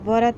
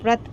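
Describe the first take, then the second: First: The v is said with a full vowel after it. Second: The v joins the r with no vowel between. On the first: The speaker calls it wrong. "व पूरा नहीं, व्रत ऐसे नहीं पढ़ रहे हैं हम" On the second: The speaker calls it right. "व्रत पढ़ रहे हैं। आधा व"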